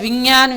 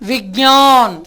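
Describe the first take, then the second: First: The middle is said with an 'nj' sound. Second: The middle is said with a 'gy' sound. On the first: The speaker calls it wrong. "உங்களுக்கு உச்சரிப்பு தெரியலைன்னு அர்த்தம்" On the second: The speaker calls it right. "அந்த இக்கனா வரணும்"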